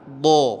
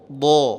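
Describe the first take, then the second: Both takes have the same delivery.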